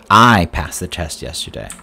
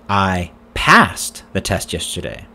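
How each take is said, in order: First: The word 'I' carries the main stress. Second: The word 'passed' carries the main stress. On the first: It says who passed the test. "Who passed the test yesterday?" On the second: It says the test was passed, not failed. "Did you fail the test yesterday?"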